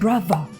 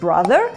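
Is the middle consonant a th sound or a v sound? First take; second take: v; th. First: The middle consonant is a v sound. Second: The middle consonant is a th sound. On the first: "«th», який там звучить як «в»" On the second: "замість"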